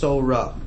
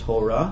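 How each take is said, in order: First: The word begins with a soft s sound. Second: The word begins with a hard t sound. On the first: The speaker calls it right. "That's what it's pronounced" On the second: The speaker calls it wrong. "not divrei Torah"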